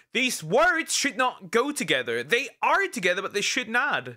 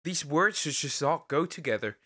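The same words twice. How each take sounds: First: High-pitched, exasperated objection; emphatic protest. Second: Said in the usual way. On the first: Real, not acted. Streamer objecting to words that should not go together, emphatic protest. Repeats the objection, appalled by title.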